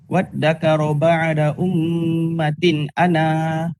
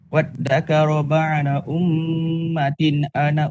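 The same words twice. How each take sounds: First: The last vowel is long before a stop. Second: The last vowel is short and runs straight on. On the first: The reading stops at this word. "sekiranya kalau kita waqaf... kita kena sebut dia" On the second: The reading continues without stopping. "bila kita baca wasal, alif ni... tak ada"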